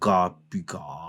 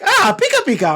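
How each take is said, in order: First: It is said in a curious tone. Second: It is said in a happy tone.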